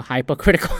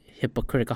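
First: "hypocritical" opening like "hype"; long-i first syllable. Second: "hypocritical" opening like "hip"; short-i first syllable. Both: Real, not acted. Trying out how to say it.

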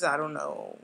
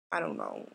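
First: Said in the usual way. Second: Very low, flat mock despair; mock deep gloom. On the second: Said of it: "I'm kidding".

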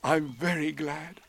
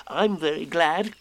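First: Slow, contented bear voice; happy. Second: High, happy little voice; happy Piglet. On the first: Pooh pleased with his gift, happy. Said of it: "said Pooh happily". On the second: Piglet echoing Pooh, happy small voice. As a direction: pipe it up gladly. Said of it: "said Piglet happily". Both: A narrator's reading.

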